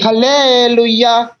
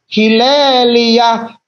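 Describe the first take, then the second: First: The word begins with 'ha' and ends '-luya'. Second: The word begins with 'hi' and ends '-lia'. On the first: "disebut sebagai Haleluya" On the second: "padahal sebetulnya Hilelia"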